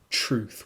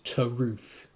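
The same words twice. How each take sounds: First: The t and r merge into a ch sound. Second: The t and r are separated, said slowly. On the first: The speaker calls it wrong. "it shouldn't turn into truth with a ch" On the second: The speaker calls it right. "which when sung should be truth, really. Not quite that slowly"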